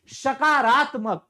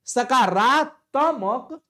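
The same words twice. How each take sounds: First: Slow, careful सकारात्मक with each syllable clear; drawn-out सकारात्मक; correct pronunciation. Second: Very slow सकारात्मक, drawn out with a rising end; slow mocking सकारात्मक rising at the end; wrong form sounded out. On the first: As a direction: spell out सकारात्मक slowly as the right form. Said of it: "सकारात्मक सही है". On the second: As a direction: stretch सकारात्मक as the mistaken form. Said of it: "सकारात्मक नहीं होता है". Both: Shown as a demonstration.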